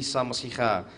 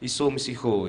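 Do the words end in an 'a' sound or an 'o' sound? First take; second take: a sound; o sound. First: The words end in an 'a' vowel. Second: The words end in an 'o' vowel. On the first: This is the eastern dialect form. "logat timur ... itu Isa" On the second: This is the western dialect form. "logat barat itu ... Iso"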